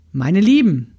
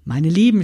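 First: Louder call to the room; calling for attention. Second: Said in the usual way. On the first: A narrator's reading. Grandmother calls to her sewing friends, louder. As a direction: grab the room's attention. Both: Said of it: "Großmutter räusperte sich".

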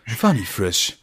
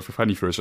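First: Slow announcer brand read; advertising voice. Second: Said in the usual way. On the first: Shown as a demonstration. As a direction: sell it like a TV commercial. (Werbesprecher-Stimme) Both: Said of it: "machen wir jetzt Werbung für".

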